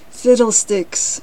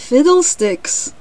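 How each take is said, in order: First: Said in the usual way. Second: High, loud, drawn-out exclamation; exclaiming cricket. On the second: A narrator's reading. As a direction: burst out slowly as the cricket. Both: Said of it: "replied the cricket".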